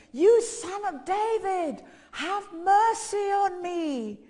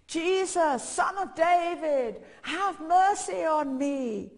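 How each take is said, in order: First: Loud, high, long-drawn shout; desperate cry, every word stretched out; insistent shouting. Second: Loud, high, drawn-out call; shouting out. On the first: Undeterred beggar calls to Jesus, shouting harder. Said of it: "he kept shouting all the more". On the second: Blind beggar calls to Jesus, shouting out. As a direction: call out slowly for mercy over a crowd. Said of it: "he was shouting out". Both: Retold or imitated.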